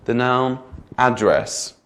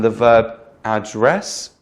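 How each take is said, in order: First: Slow, "address" as the noun AD-dress; first-syllable stress. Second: Slow, "address" as the verb ad-DRESS; second-syllable stress. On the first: Teacher giving another example, slow front-stressed "address". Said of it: "nouns are stressed on the first syllable". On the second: Teacher contrasting noun and verb, slow end-stressed "address". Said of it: "the verb is normally at the end". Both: Shown as a demonstration.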